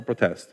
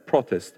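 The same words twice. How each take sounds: First: "protest" stressed on TEST; pro-TEST, second syllable stronger. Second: "protest" stressed on PRO; PRO-test, first syllable stronger. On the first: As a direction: hit the last syllable of "protest". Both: Shown as a demonstration. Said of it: "What is the accent?".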